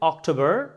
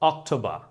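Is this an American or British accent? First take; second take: American; British. First: It is said in an American accent. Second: It is said in a British accent. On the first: "আমেরিকানরা বলছে" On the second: "ব্রিটিশরা বলছে"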